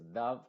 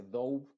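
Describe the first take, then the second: First: "dove" as dav, meaning pigeon; short u like love; short vowel. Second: "dove" with long "ou" glide, the mistake; wrong long o. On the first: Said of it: "esto no se dice dove". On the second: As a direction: say it wrongly as doub. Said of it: "sino que se dice dove". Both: Shown as a demonstration.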